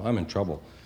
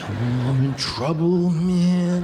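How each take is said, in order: First: It is said flatly, without much emotion. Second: It is said with strong, childlike emotion.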